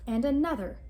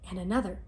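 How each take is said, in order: First: And another, said a little higher and louder; building excitement. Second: Said in the usual way. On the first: A narrator's reading. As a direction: build the momentum of the chewing. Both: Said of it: "repeated with rising build".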